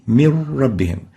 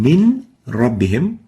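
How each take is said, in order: First: The n disappears into a doubled r. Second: The n is pronounced clearly before the r. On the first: "No nun would be pronounced, only a ra, and the ra will be like duplicate ra" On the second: "where each of the two letters, the nun and ra, are spelled clearly and independently"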